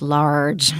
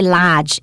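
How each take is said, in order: First: The R sound in the word is pronounced. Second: The R sound in the word is dropped. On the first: The speaker calls it right. "it's large. Watch that R" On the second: The speaker calls it wrong. "don't say large"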